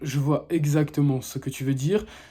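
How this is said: The voice is deep, steady and calm. The speaker seems experienced and self-assured. The speaker calls it right. "il faut que tu aies une voix grave, posée et calme"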